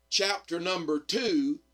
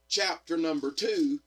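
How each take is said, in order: Both takes have the same delivery.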